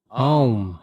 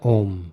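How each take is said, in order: First: It starts with an open 'ah' vowel. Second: It starts with a single rounded 'o' vowel. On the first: The speaker calls it right. "Não é Om. Você abre a boca e diz Ah" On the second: The speaker calls it wrong. "Não é Om"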